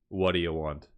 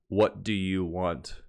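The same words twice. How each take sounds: First: The words are run together and reduced. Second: Each word is said fully and separately. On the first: "But what we really say is" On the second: "correct English would be like"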